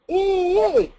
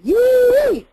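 First: Ee from below the pencil, larynx up; pressed ee. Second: Very high loud yee above the pencil; bright forward yee. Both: Shown as a demonstration. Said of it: "I have them compare those two".

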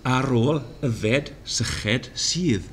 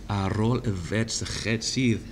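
First: "Ar ôl y fed syched sydd" slow, falling on "ôl"; slow Welsh recitation. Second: "Ar ôl y fed syched sydd" softer, leaning on "sydd"; softer Welsh repeat. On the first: Teacher reciting Welsh line slowly. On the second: Teacher repeating Welsh line softly. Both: Shown as a demonstration. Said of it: "here are five examples".

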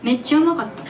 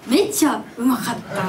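First: Osaka dialect try. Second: Trying Osaka dialect. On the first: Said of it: "大阪弁で". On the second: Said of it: "どうやって言うの？ 大阪弁で". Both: Shown as a demonstration.

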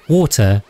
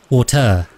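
First: Said in the usual way. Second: "water" stressed on the second syllable, wa-TER; misplaced stress. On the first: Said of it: "where the accent goes". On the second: Shown as a demonstration. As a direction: shift the accent in "water" to its last syllable. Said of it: "different between saying water and water".

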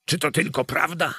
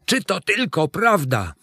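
First: Quick, high, disbelieving question; emotional cry. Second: High, fuller-voiced disbelief; insistent repeated question. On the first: Judge asking the priest if it is true, breathlessly excited. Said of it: "wołając". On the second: Judge repeating his question to the priest, insistently excited. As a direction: press the question, pitched high. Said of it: "powtarzał". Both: A narrator's reading.

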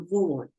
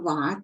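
First: "vård" with a rounded o vowel; Swedish pronunciation. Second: "vad" read as spelt, with an open a; everyday non-Swedish reading. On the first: Teacher showing learners how Swedish reads the word, "vård" with rounded o. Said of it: "แต่ภาษาสวีเดนจะอ่านว่า". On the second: Teacher showing learners how "vad" might normally be read, non-Swedish reading. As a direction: say "vad" the ordinary way, with an ah vowel. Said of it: "ถ้าเกิดเราอ่านธรรมดา เราอาจจะอ่านว่า". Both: Shown as a demonstration.

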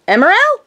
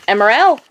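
First: High, loud call to the dog. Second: Said in the usual way. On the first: Real, not acted. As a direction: call his name across the room. Calling the dog by name.

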